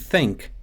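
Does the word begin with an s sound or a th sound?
th. It begins with an unvoiced th sound. "and think becomes sink"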